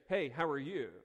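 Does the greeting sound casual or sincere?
sincere. It is a slower, sincerely concerned question.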